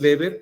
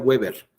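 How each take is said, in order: First: The name is said with a German pronunciation. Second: The name is said with an English pronunciation. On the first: The person is German. "la pronunciación del apellido Weber es, es así, Weber, porque es alemán" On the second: The person is English or American. "Si fuera inglés o norteamericano sería Weber"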